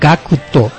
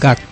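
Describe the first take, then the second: First: The name is said the Japanese way. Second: The name is said the English way. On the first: "en Japón pronunciamos GACTO" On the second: "en vez de decir GACT"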